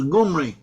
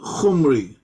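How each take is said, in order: First: The name begins with a G sound. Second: The name begins with a harsh K sound. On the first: This is how some Hebrew speakers may have said it. "so some of the Hebrews as Gumri" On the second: This is how the name was said in Assyrian. "his name in Assyrian was pronounced as uh"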